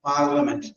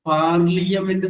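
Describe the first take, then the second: First: No vowel sound comes between 'l' and 'a'. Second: An extra 'ee' sound follows the 'l'. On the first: The speaker calls it right. "Pronunciation ഇല്ല" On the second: The speaker calls it wrong. "ആ ഐ pronounce ചെയ്യുക"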